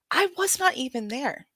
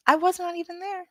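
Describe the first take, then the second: First: Said in the usual way. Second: "I was not even there" repeated higher and disbelieving; incredulous repeat. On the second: Real, not acted. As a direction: pitch the whole line up in disbelief.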